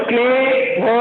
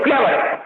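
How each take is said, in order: First: क्लेवर chopped into क्ले and वो with a gap; wrongly broken up. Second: क्लेवर said smoothly as one unbroken word; no gap inside क्लेवर; in one flow. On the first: Teacher showing how not to say it, क्लेवर split apart. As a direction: pause after क्ले, then say the rest. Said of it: "आप ऐसा बोल दो". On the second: Teacher showing the word's flow, क्लेवर run together. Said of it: "बोलने का flow देखो". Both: Shown as a demonstration.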